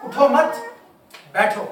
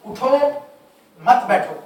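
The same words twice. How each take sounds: First: उठो मत together and raised, a break, then बैठो; pause after मत. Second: उठो alone, a clear break, then मत बैठो together; pause after उठो. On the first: Teacher showing the stop that reverses the meaning, pause after मत. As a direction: stop hard after मत, leaving बैठो alone. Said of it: "अगर मैं यहाँ stop करता हूँ". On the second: Teacher showing the stop for standing up, pause after उठो. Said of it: "मैं अगर यहाँ रुकता हूँ". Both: Shown as a demonstration.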